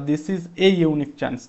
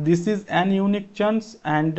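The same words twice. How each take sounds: First: Said in the usual way. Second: Slow trial reading of 'This is an unique chance' as a wrong answer; wrong option read out. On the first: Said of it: "সেই concept লাগবে". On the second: Shown as a demonstration. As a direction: try out the wrong article slowly, testing it. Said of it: "এটা তো হবেই না".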